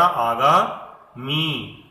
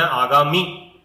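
First: आगामी said very slowly, final मी stretched long; teacher models आगामी with a long ई; correct long vowel. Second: आगामी with a clipped short मी; wrong demo: आगामी with short i at the end; wrong short vowel. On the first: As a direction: draw out the मी in आगामी. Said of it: "क्या है हमारा? आगामी". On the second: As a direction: say आगामी ending in a quick short इ. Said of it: "अगर हम इसे बोले आगामी तो क्या हो जाएगा? गलत". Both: Shown as a demonstration.

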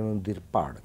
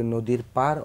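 First: পাড় with the tongue flapped back for ড়; পাড় বলুন ড়-এর উচ্চারণে; retroflex r sound. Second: পার with a plain tapped r at the end; শেষে হালকা র দিয়ে পার; clear r sound. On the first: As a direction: flap the ড় in পাড়. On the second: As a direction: say পার with a light rolled r. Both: Shown as a demonstration. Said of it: "নদীর পাড় কী জিনিস আর নদীর পার কী জিনিস".

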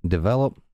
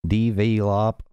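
First: "develop" in a light Southern accent, short middle vowel; first, milder Southern try at "develop". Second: "Develop" stretched into Southern DEE-vee-lop; overdone Southern "Develop" with long ee vowels; southern accent. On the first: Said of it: "trying to do this in the southern accent". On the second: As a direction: draw out each syllable of "Develop" in a Southern accent. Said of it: "I can't do this". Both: Shown as a demonstration.

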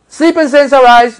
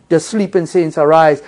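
First: High, ringing call of the wrong kind of shout; mock shout. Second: Said in the usual way. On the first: Shown as a demonstration. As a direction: belt it out like a proclamation. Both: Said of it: "it's not gonna come like that".

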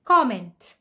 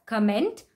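First: Comment stressed on COM; stress on first syllable. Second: Comment stressed on MENT; stress on second syllable. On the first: Teacher modelling comment. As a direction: say COM-ment. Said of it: "the actual pronunciation is". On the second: Teacher showing the wrong comment. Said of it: "Many people pronounce it as". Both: Shown as a demonstration.

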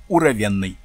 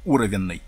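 First: Уровенной stressed on the Е after В; alternative word stress. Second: Уровенной stressed right at the start, on У; alternative word stress. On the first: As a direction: stress on the third syllable: уровЕнной. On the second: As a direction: stress on the first syllable: Уровенной. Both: Shown as a demonstration. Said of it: "правильно поставить ударение".

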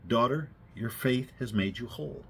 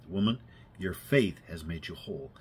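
First: A kind, softer blessing; Jesus blessing the woman with kindness; gentle kindness. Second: Softer, lower and tender; Jesus speaking softly to the healed woman; gentle. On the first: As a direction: speak it kindly, like a father. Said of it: "in the most gentle, kindest way". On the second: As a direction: say it gently to her. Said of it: "looked down at her so gently and said". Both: Retold or imitated.

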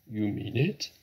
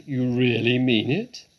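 First: Mildly astonished rising question; tentative, hopeful question; disbelieving cry. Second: Booming disbelief, swooping up at the end; astonished cry. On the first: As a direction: ask in restrained disbelief, voice lifting at the end. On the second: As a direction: cry it louder in amazed hope. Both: A narrator's reading. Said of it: "cried Badger".

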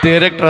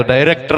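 First: ಡೈರೆಕ್ಟರ್ begun with t, "terektr"; echoed mispronunciation. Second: Said in the usual way. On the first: Retold or imitated. Director quotes candidate's mistake, t-started ಡೈರೆಕ್ಟರ್. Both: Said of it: "ಅದು ಡೈರೆಕ್ಟರ್".

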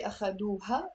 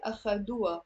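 First: أخدوها with the ha sounded; full ha. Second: أخدوا with the ha dropped; silent ha. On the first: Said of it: "we don't say". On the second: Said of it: "we say". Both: Shown as a demonstration.

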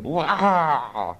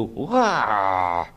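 First: Higher-pitched "wah" let out; outward wail. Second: Contained "wah" at usual pitch; inward wail. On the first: Small boy about to cry as mother grabs his hand, outward wail. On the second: Small boy reflecting on the gore, inward wail. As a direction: wail it to yourself, held in. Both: A narrator's reading.

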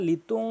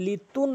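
First: লিতুং with nasal ghunna; correct way. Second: লিতুন ending in plain n; mock mistake on লিতুন; wrong way. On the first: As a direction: hum the ending of লিতুং. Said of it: "গুণনা করে বলবেন". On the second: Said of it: "লিতুন বলা যাবে না". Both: Shown as a demonstration.

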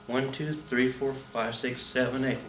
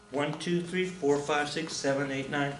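First: Said in the usual way. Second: Counting one beat too many, softly; soft count that runs past eight; wrong count. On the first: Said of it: "that's too many". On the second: Shown as a demonstration. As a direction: count the dance steps softly and overshoot to nine. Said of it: "Nope, that's too many".

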